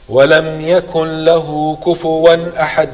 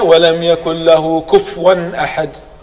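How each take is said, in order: First: The middle word has a u vowel after the f. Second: The middle word has no vowel after the f. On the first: The speaker calls it right. "This is correct" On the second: The speaker calls it wrong. "This is wrong"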